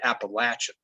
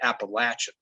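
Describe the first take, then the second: First: The word is said in the mountain locals' way. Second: The same.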